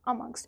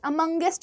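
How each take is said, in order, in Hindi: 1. यह -ngst पर खत्म होता है, बीच में कोई अतिरिक्त स्वर नहीं। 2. यह -ngest पर खत्म होता है, इसमें एक अतिरिक्त स्वर है।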